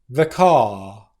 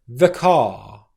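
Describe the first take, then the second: First: The word 'the' is short and unstressed. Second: The word 'the' is short and unstressed.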